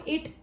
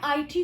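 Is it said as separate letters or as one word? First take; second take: one word; separate letters. First: The letters are said as one word. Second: Each letter is said separately. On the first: The speaker calls it wrong. "It नहीं पढ़ सकती" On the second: The speaker calls it right. "Individually pronounce करूंगी"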